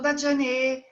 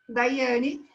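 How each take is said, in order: First: The middle sound is a consonant like 'j' or 'y'. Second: The middle sound is a vowel like 'i'. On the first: The speaker calls it wrong. "e não Dajane" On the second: The speaker calls it right. "la fonética de la Y es I"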